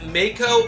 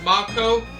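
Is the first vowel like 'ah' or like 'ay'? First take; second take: ay; ah. First: The first vowel sounds like 'ay'. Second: The first vowel sounds like 'ah'. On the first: The speaker calls it wrong. "making the A as an actual A" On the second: The speaker calls it right. "the proper way of saying it"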